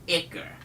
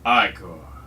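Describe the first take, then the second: First: The first syllable sounds like 'ick' in icky. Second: The first syllable does not sound like 'ick'. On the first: "Because it's like icky" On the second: "I can understand Icor"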